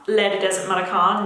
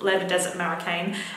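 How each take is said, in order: First: It is said in a French-style accent. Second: It is said in a broad Australian accent. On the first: "why do I keep saying it like that?" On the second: "I should just embrace my Bogan accent"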